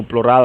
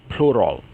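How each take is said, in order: First: "plural" stressed on the last syllable, open -ral; Portuguese pronunciation. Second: "plural" stressed on the first syllable, falling to -rol; English pronunciation. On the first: Teacher names the word before the English, Portuguese pronunciation of "plural". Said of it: "mas a pronúncia muda". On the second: Teacher contrasts English with Portuguese, English pronunciation of "plural". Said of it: "a gente diz plural". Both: Shown as a demonstration.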